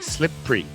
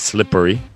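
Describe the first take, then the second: First: The middle vowel is dropped, two syllables. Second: The middle vowel is fully said, three syllables. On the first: "skip that e and they just say slippery" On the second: "the phonics says slippery"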